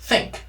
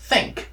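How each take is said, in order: No difference in how they are said.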